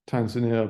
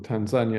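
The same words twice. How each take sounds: First: It is pronounced the usual English way. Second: It is pronounced the way locals say it.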